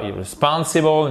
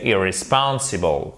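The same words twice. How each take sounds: First: Irresponsible with the opening ir- swallowed, only SPON stressed; irresponsible, weak start straight into SPON; wrong stress demo. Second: Irresponsible with a clear stressed IR before SPON; irresponsible, secondary stress on IR, main on SPON; correct secondary stress. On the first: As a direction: show the mistake: irresponsible without stress on its first syllable. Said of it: "c'est pas irresponsible". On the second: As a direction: correct it: irresponsible, sounding the first syllable fully. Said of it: "mais c'est irresponsible". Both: Shown as a demonstration.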